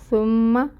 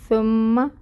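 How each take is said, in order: Both takes have the same delivery.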